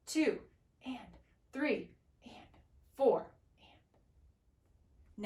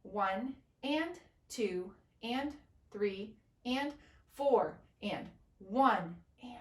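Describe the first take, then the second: First: Ands whispered, numbers spoken aloud; whisper counting. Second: Said in the usual way. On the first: Shown as a demonstration. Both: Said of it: "it's gonna sound like this".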